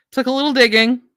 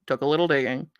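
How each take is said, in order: First: Lifted, higher voice; light and high; high-pitched remark. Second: Low, quiet aside to yourself; low, muted remark. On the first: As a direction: pitch the whole phrase up. Repeats remark in two pitches. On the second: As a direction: lower and softer. Repeats remark, dropping back down. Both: Real, not acted.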